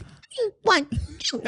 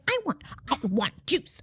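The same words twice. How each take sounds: First: Put-on a high, slow, sugary toddler voice that is still rude; sweeter pitched-up demand. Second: A light imitation of a toddler demanding juice; rude toddler demand. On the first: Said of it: "pitched her voice up. So it sounded sweeter". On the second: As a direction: play the bossy little girl asking rudely. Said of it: "Can you do it for me?".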